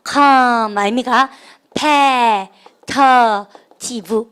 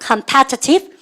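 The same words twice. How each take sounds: First: COMPETITIVE drawn out slowly, one syllable at a time. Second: Said in the usual way. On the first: Shown as a demonstration. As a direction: sound out "competitive" slowly in separate pieces. ("competitive"를 한 음절씩 천천히 끊어서) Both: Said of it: "발음해볼까?".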